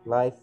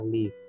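First: The vowel sounds like the one in five. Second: The vowel sounds like the one in give. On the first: It means broadcast as it happens. "nah itu kata sifat ya, kata sifat artinya langsung" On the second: It means to dwell somewhere. "kalau yang tinggal di sini adalah kata kerja"

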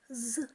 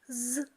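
The two takes are said the same way.

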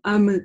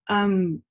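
First: The m ends with an abrupt lip release. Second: The m closes and fades out through the nose. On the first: The speaker calls it wrong. "резко не разжимаем губы, не даем вот этот резкий звук" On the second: The speaker calls it right. "закрываем и завершаем звук через нос"

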